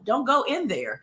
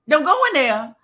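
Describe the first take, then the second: First: It is said calmly and plainly. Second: It is said urgently, like shouting a warning.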